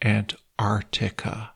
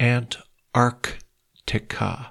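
First: The k sound after 'ar' is dropped. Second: The k sound after 'ar' is pronounced. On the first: The speaker calls it wrong. "ไม่ใช่" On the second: The speaker calls it right. "ถ้าจะออกเสียงถูกต้องนะครับต้องออกเสียงว่า"

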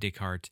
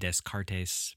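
First: The name is said with a French pronunciation. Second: The name is said with a local regional pronunciation. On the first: The speaker calls it right. "He was French" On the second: The speaker calls it wrong. "People from my area would probably pronounce it Descartes, but, you know, that's incorrect"

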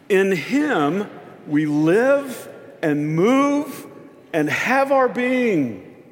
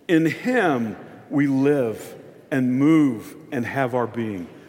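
First: It is said with more force and conviction. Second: It is said in a plain, even way. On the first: "Now say it a little bit like you mean it" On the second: "Say that with me"

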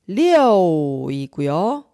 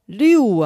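First: The vowel glides through an 'o' sound, like 'yo'. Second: The vowel is a plain 'yu' sound without 'o'. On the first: The speaker calls it right. "숫자 6은 6이고요" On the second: The speaker calls it wrong. "6 아니고요. 여를 유로 잘못 발음하는 경우입니다"

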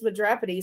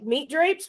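First: The name sounds like one Greek-sounding word. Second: The name sounds like the English words meat drapes. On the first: The speaker calls it right. "Actually, it's pronounced Madropity" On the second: The speaker calls it wrong. "I think you're pronouncing it wrong"

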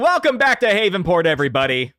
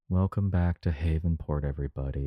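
First: It is said in a happy tone. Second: It is said in a sad tone.

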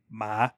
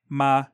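First: The pitch starts low and rises slightly. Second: The pitch stays low and level. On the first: "a low rising" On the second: "like a low flat tone"

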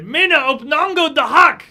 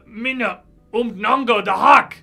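First: It is said insistently, with more pressure. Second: It is said calmly, without pressing.

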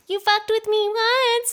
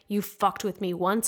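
First: It is said in a put-on baby voice. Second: It is said in a normal adult voice.

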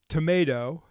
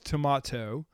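First: It is said with an American pronunciation. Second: It is said with a British pronunciation. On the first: "or you speak it to English" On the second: "the British version of one of the world's favorite fruits as tomato"

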